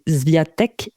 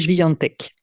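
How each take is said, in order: First: The name is pronounced with French sounds. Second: The name is pronounced with Polish sounds. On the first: "si on prononce à la française" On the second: "le prononcer euh, en polonais"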